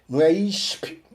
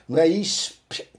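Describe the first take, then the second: No difference in how they are said.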